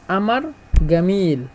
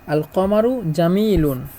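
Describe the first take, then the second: First: It is said in Egyptian Arabic pronunciation. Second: It is said in standard Arabic pronunciation.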